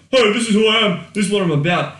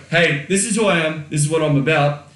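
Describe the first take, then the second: First: "Hey, this is who I am" blurted out high and loud; brash announcement. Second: Said in the usual way. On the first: Shown as a demonstration. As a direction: shout it like a cocky sales pitch. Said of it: "You don't say that. You don't walk up". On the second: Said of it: "You don't say that".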